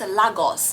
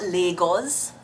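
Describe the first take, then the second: First: It is pronounced the Nigerian way. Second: It is pronounced the British English way. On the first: The speaker calls it right. "it's pronounced Lagos" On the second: The speaker calls it wrong. "not Lagos"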